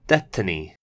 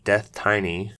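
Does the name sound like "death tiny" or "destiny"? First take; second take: destiny; death tiny. First: It sounds like the word destiny. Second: It sounds like the words death and tiny. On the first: The speaker calls it right. "a silly pun on the word destiny, so it's pronounced DeathTiny" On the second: The speaker calls it wrong. "I'd be pronouncing it as DeathTiny, as I think it would read"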